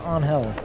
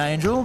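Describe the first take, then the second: First: The name is said with its native pronunciation. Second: The name is said with an English pronunciation. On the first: This is closer to how the name is said natively. "the native pronunciation is closer to Angel" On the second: This is how people usually call him. "They call him Angel"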